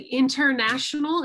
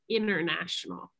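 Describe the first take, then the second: First: The T after the N is clearly pronounced. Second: The T after the N is silent. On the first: "you can still say international if that's how you prefer to say it" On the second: "use that American pronunciation, it would be international"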